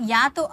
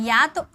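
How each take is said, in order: The two takes are said the same way.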